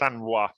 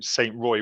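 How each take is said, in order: First: The name is said with a French pronunciation. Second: The name is said with an English pronunciation. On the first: "I think it is" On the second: "I'm a British man in France, so I'd call him"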